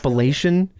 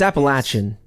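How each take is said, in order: First: It uses a non-local pronunciation of the word. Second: It uses the local regional pronunciation of the word. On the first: The speaker calls it wrong. "I grew up hearing" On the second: The speaker calls it right. "more localized accent"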